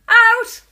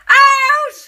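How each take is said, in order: First: The word is said weakly, with little force. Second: The word is shouted loudly, with strong force. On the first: The speaker calls it wrong. "That wasn't a very good shout out" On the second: The speaker calls it right. "Better. Much better"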